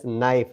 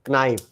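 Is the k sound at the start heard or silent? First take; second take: silent; heard. First: The word starts with an n sound, no k. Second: The word starts with a k sound. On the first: The speaker calls it right. "As knife, because K is silent here" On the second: The speaker calls it wrong. "not knife"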